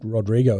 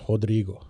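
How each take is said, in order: First: The name begins with an English R sound. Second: The name begins with an H sound. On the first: The speaker calls it wrong. "So Rodrigo is not or, or like Rod" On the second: The speaker calls it right. "it's Rodrigo. The R at the start of a word is actually pronounced as a H"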